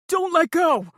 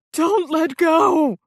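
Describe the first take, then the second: First: High, loud terrified plea; dangling man screaming up; screamed plea. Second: High, very loud, slow shout; dangling man at full terrified shout; full scream. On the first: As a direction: scream it clinging on. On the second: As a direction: scream it even louder than the first. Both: Acted. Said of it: "Zane screamed".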